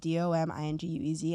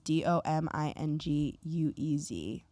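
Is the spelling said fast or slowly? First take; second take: fast; slowly. First: The letters are spelled out quickly. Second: The letters are spelled out slowly.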